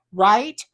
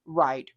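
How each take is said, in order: First: Louder, rising right?; seeking agreement with a lift; questioning right. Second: Lower, falling right; answering your own question with a nod; settled right. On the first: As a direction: toss it out as a question. Agreeing with a comment, then echoing. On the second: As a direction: confirm it flatly. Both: Real, not acted.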